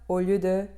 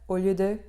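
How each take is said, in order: The two takes are said the same way.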